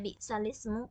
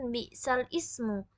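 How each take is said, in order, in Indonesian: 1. Kata-kata itu menyatu menjadi satu kata. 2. Kata-kata itu diucapkan sebagai bagian-bagian terpisah. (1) "Kenapa dibaca bi'salismu?" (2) "sebenarnya kan bi'sal ismu"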